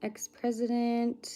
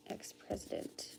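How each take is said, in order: First: Said in the usual way. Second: Ex-president whispered, much softer. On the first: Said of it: "Ex-president. (whispered repeat)". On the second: Shown as a demonstration. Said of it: "Ex-president. (plain take)".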